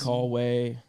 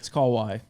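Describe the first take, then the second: First: The second part sounds like 'way'. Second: The second part sounds like 'why'. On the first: The speaker calls it wrong. "I hear call we, call way" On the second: The speaker calls it right. "It's Call Y, not Way"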